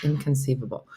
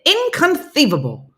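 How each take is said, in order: First: Said in the usual way. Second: High, loud, lisping exclamation; movie catchphrase impression. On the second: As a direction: squawk it like the film's quirky catchphrase. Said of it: "that's how I have to say it".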